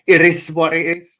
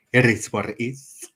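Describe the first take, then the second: First: Catchphrase punched higher and louder; loud mock catchphrase. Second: Lightly voiced tough-guy catchphrase; mock catchphrase. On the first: Mocking the streamer's famous line, louder and higher. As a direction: belt out "It is what it is" as a parody. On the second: Mimicking the tough streamer's catchphrase lightly. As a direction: drop the famous line half-serious. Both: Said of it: "I'm nearly saying".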